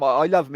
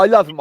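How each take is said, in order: First: Said in the usual way. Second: Louder and higher, pressing hard on love; emphatic love. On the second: Real, not acted. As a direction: blurt it out with full force. Emphatic declaration about best mate.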